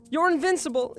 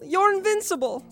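First: Pleading denial. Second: Even higher, breaking plea; desperate denial. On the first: Repeated denial. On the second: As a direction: push the plea to despair. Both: Acted.

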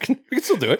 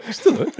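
First: High and laughing. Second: Said in the usual way. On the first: Real, not acted. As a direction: squeak it out while laughing.

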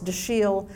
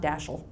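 First: "Dashiell" said duh-SHEEL, drawn out; correct French pronunciation. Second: "Dashel" said DASH-ul; mistaken TV pronunciation. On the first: Granddaughter correcting people on the name, "Dashiell" pronounced duh-SHEEL. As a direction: stress the second syllable of "Dashiell": duh-SHEEL. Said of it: "So Dash is okay, but it's". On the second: Granddaughter rejecting what they say on television, mispronounced "Dashel" as DASH-ul. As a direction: stress the first syllable of "Dashel", short second one. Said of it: "it's just not". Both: Shown as a demonstration.

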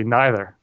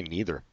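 First: Neither said NYE-ther with long i; neither with eye sound. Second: Neither said NEE-ther with long ee; neither with ee sound. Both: Shown as a demonstration. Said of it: "I say neither".

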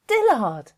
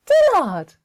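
First: Lightly voiced Ma, fond call; Ma calling the name. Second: Name cried out high and loud; loud high call. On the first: Ma naming her newborn, fond call. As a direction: call out the new baby's name. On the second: Acted. Ma calling the name out loud, delighted. Repeated name, much higher.

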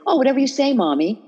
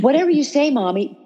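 First: High, syrupy "whatever you say, Mommy"; butter her up in a higher sweet voice to end the fight; sweet placating. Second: Sing-song it sweetly to defuse her; sweet placating. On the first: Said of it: "talk really sweetly". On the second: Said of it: "I came up with a phrase". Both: Retold or imitated.

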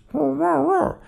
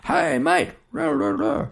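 First: High, wordless far-off murmur; distant garbled voice. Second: High-pitched distant call; calling across distance. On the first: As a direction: mimic words blurred by distance. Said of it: "and it comes across as". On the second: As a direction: imitate someone hollering over water. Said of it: "someone could be saying". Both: Acted.

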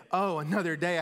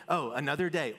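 First: "Oh, another day" brighter and louder; eager, grateful "Oh, another day"; excited. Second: "Oh, another day" with a mild tired sigh; jaded "Oh, another day"; weary. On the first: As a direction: greet "Oh, another day" with joy. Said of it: "Or we could say". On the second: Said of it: "Or you can wake up and say". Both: Pretend.

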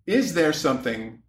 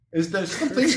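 First: Said in the usual way. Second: Lightly imitated therapist voice, pitched up; Doctor Ruth. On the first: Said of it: "maybe I should ask this in the voice". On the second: Shown as a demonstration. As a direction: put on a higher radio sex-therapist voice. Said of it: "ask this in the voice of Doctor Ruth".

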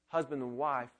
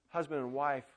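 The two takes are said the same way.

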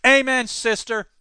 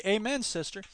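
First: Emphatic amen. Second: Quiet amen. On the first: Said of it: "I say that in a kind of familial way". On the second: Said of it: "But that's actually". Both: Shown as a demonstration.

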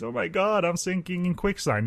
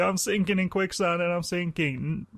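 First: High, hammed-up damsel in distress; mock peril. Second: High, hammy sinking damsel; mock peril. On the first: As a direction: fake a panicked cry for help. Acting quicksand porn victim. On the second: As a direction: whine it like a fake damsel sinking. Acting quicksand porn victim again.

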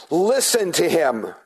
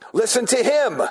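First: Said in the usual way. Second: Listen to him lifted high, stressing the words; emphasis test. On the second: Shown as a demonstration. Teacher testing the emphasis of God's words, raised stress. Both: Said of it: "Where's the emphasis?".

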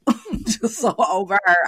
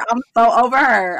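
First: Laughing. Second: Said in the usual way. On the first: Real, not acted. Laughing while dismissing her.

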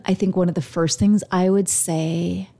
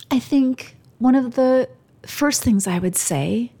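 First: Said in the usual way. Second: Higher, halting, holding back tears; choked up and pausing between phrases; emotional. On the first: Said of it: "uh-oh, I might get emotional". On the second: Real, not acted. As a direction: restart the thought while fighting real emotion. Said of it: "I might get emotional".

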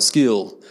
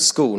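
First: Broad ocker "school", vowel stretched towards "skewl"; mock broad Australian vowel in "school"; ocker Australian accent. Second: Proper, posh Adelaide "school" with a rounded oo; Adelaide accent. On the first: Preacher showing what Adelaide avoids, ocker accent on "school". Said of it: "We're not ochre". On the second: Preacher showing how Adelaide people speak, posh Adelaide accent on "school". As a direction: say "school" in very English-sounding Adelaide vowels. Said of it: "We're very proper and posh". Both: Shown as a demonstration.

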